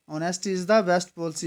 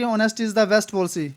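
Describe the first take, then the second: First: Honesty is the best policy said at half speed, word by word; slow dictation. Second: Said in the usual way. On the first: Shown as a demonstration. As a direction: dictate it slowly to the class. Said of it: "next question बोलता है कि".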